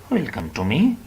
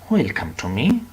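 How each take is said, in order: Both takes have the same delivery.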